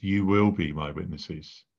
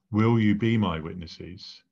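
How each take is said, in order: First: "will" stressed, the line falling like a command; firm statement. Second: "Will you be my witnesses?" asked as a polite question, Will leading; as a request. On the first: Preacher contrasting Jesus' command with a request, firm statement. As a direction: state it as a settled fact, not a question. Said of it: "Note, it's not a request". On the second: Preacher showing what Jesus did not say, as a question. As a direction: pose it as a gentle invitation, a question. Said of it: "Question mark". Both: Shown as a demonstration.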